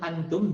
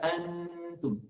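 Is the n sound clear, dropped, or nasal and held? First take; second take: clear; nasal. First: The n is pronounced clearly and briefly. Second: The n is nasalized and held two beats. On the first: The speaker calls it wrong. "seperti jelas izhar namanya antum" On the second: The speaker calls it right. "Dengungkan di rongga hidung dua ketukan"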